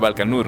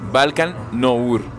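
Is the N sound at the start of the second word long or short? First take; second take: short; long. First: The N sound is short and single. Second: The N sound is held long, doubled. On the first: The speaker calls it wrong. "como si fuera Balkan Nur" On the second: The speaker calls it right. "Se pronuncia con dos N's"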